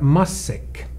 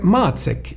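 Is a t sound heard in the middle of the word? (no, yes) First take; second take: no; yes. First: No t sound is heard in the middle. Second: A t sound is heard in the middle. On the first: "i Sverige är det stumt, så de säger massäck" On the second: "ordet matsäck"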